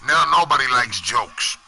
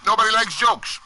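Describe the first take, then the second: First: Said in the usual way. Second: Emphatic repeat. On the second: Real, not acted. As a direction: repeat "Nobody likes jokes" much higher, hitting "likes".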